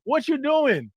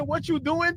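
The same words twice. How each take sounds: First: Said in the usual way. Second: Mock text message. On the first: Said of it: "completes the Y D for you". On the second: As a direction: read it like a hopeful late-night text. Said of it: "Are you sending "what you doing" text".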